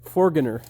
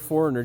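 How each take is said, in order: First: The g in the word is sounded. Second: The g in the word is silent. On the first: The speaker calls it right. "just foreigner, you know? Just use it" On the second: The speaker calls it wrong. "instead of saying the word foreigner"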